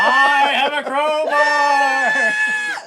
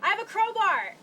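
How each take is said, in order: First: Slow, high, laughing ghost wail; ghostly voice. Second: Loud excited yell; shouted. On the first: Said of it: "you hear this ghostly voice". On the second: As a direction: announce it proudly, loudly. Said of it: "and I'll say". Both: Acted.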